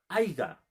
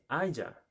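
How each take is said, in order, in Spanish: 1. Se oye un sonido g en el medio. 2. Se oye un sonido y en el medio. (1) "¿Estará bien pronunciado?" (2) "Se dice haya"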